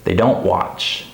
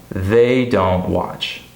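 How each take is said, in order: First: THEY light and quick, stress on DON'T WATCH; unstressed pronoun. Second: THEY stressed and drawn out, every word equal; very slow, full weight on THEY. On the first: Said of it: "I would say". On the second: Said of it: "instead of saying". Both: Shown as a demonstration.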